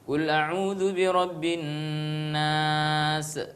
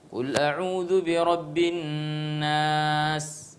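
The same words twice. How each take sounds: First: The final consonant ends with an echoing bounce. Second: The final consonant stops without any echoing bounce. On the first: The speaker calls it wrong. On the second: The speaker calls it right.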